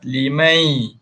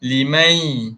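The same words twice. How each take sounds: First: The word ends with a slight y glide. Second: The word ends with a slight y glide.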